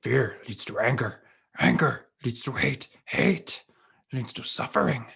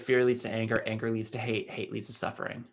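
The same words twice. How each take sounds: First: It is said in a Yoda voice. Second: It is said in his normal voice.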